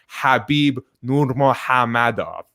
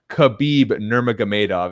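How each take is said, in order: First: The name starts with a rough throaty sound. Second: The name starts with a plain hard K sound. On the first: The speaker calls it right. "It's actually" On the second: The speaker calls it wrong. "is not"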